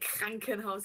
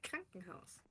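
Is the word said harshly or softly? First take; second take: harshly; softly. First: The word is said harshly and forcefully. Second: The word is said softly and plainly. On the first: It is an exaggerated joke version. The speaker calls it wrong. "you can pronounce them pretty harshly, but it's not like you would not say Krankenhaus" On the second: It is how people really say it. The speaker calls it right. "you would say Krankenhaus"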